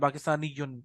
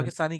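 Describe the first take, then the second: First: The word ends with a full '-yun' ending. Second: The word ends in plain '-i' without '-yun'. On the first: This is the full form used for learning. "सिर्फ सीखने के लिए हम कह रहे हैं" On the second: This is the normal form when pausing. "Normal आप पाकिस्तानी कह सकते हैं"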